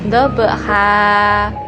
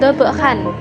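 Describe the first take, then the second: First: The word ends with a lengthened vowel. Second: The word ends with an n sound. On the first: The speaker calls it right. "tetapi dobha" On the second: The speaker calls it wrong. "bukan dobhan"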